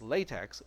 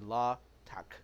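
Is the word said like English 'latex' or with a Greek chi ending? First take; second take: English latex; Greek chi. First: It is said like the English word latex. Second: It ends with the Greek letter chi sound. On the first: The speaker calls it wrong. "it's not pronounced as latex" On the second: The speaker calls it right. "It is actually LaTeX"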